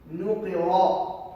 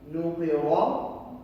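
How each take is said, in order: First: The r is thick, followed by a vowel. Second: The same.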